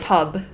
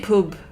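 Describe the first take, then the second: First: The vowel is said in a standard accent. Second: The vowel is given a regional accent. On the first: The speaker calls it wrong. "They wouldn't say pub" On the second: The speaker calls it right. "They would say pub"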